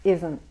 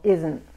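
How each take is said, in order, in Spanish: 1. La t final apenas se oye. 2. La t final apenas se oye.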